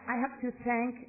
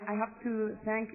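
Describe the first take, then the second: No difference in how they are said.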